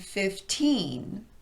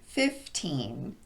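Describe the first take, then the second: First: The stress is on the second syllable. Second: The stress is on the first syllable. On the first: The number is used within a sentence. "in sentences, we typically emphasize the teen part of the word" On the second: The number is being counted in a list. "when we count, we emphasize the first syllable in these numbers"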